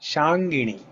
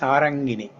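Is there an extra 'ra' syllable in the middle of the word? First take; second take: no; yes. First: It has no extra middle syllable, shan-gi-ni. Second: It has an extra middle syllable, sa-ran-gi-ni. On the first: The speaker calls it right. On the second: The speaker calls it wrong.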